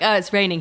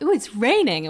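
First: It is said in an unenthusiastic tone. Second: It is said in an excited tone.

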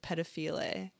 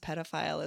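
First: It is sounded out as it looks written. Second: It is said with the usual pronunciation. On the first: The speaker calls it wrong. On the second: The speaker calls it right.

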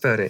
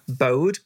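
First: The name ends with an 'ee' vowel sound. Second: The name ends without an 'ee' vowel sound. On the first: The speaker calls it right. "But it's actually pronounced Bodhi" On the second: The speaker calls it wrong. "It's spelled as if it's Bode"

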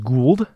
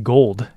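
First: The name does not sound like gold. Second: The name sounds like the word gold. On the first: The speaker calls it right. "It is Gould, though he probably did have a lot of gold" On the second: The speaker calls it wrong. "I mispronounced Jay Gould's name as Jay Gould"

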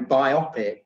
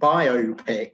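First: It is said as one blended word. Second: It is said as bio plus pic. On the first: "a lot of people use your pronunciation these days and go biopic" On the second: "I always favour the pronunciation biopic because I presume that the word is derived from the phrase biographical motion picture"

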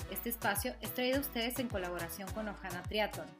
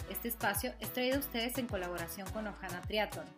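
No difference in how they are said.

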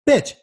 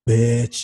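First: It is called out to grab someone's attention. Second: It is said eagerly, as if sharing juicy gossip. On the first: The speaker wants someone to notice them. "when you want to get her attention" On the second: The speaker has gossip to share. "Whenever you've got gossip"

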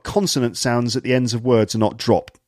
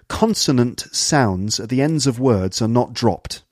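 First: Final consonants are dropped or barely pronounced. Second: Final consonants are crisply and clearly pronounced. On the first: This marks less posh speech. "otherwise it would be like" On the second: This marks posh speech. "just listen to the way the ends of the words are quite clipped"

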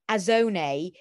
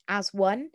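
First: The words run together with no w sound. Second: The second word starts with a clear w sound. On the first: It sounds like a rude Italian word. "which unfortunately the boys had read as azone" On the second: It means acting together as a group. "the kind of motto for the group for the week was going to be"

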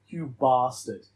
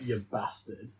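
First: It is said in a southern English accent. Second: It is said in a northern English accent. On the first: It does not sound aggressive or nasty. The speaker calls it wrong. "I hate when southerners go" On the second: It sounds scarier, like a fight is coming. The speaker calls it right. "Whereas up north you're like"

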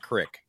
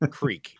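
First: The vowel is a short 'i' sound. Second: The vowel is a long 'ee' sound. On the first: The speaker calls it wrong. "It's not crick" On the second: The speaker calls it right. "It's fucking creek"

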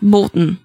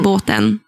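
First: The middle vowel is dropped from the word. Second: The middle vowel is kept in the word. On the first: "tar bort mitten av ord" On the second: "istället för båten"

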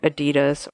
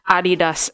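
First: The name is said the English way. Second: The name is said the German way.

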